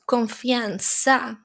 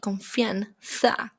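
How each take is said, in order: First: The z is pronounced like an s. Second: The z is pronounced like English th. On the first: This is how Latin American speakers say it. "they would say confianza" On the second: This is how speakers in Spain say it. "In Spain, we use more like confianza"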